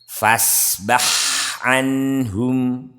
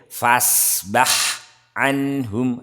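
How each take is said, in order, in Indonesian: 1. Bunyinya mengalir menyambung tanpa jeda. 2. Bunyinya terputus dengan jeda. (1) "tidak boleh terputus" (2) "Enggak boleh"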